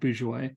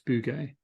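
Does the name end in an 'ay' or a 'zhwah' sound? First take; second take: zhwah; ay. First: The name ends with a 'zhwah' sound. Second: The name ends with an 'ay' sound. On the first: The speaker calls it wrong. "I think I said Bourgeois" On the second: The speaker calls it right. "but I think it's Bugay"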